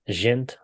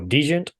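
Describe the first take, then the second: First: The word starts without a D sound. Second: The word starts with a sounded D. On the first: The speaker calls it wrong. "the D was silent" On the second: The speaker calls it right. "So the D is sounded"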